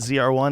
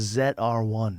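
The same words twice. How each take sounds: First: The letter Z is pronounced 'zee'. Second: The letter Z is pronounced 'zed'. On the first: This is the American way. "Like a Corvette Z R one" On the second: This is the British way. "is a Z R one"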